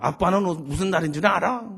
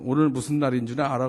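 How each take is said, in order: First: 딸이 높고 크게 되받아치는 흉내; 아빠 질문을 그대로 돌려주듯 살짝 당돌하게; 되묻는 딸. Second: 아빠가 살짝 엄하게 묻는 흉내; 낮은 편으로 추궁하듯 가볍게. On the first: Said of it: "우리 딸이 대래 물어". (되레 따져 묻는 말투) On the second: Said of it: "그래서 제가". (은근히 따지는 말투) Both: Retold or imitated.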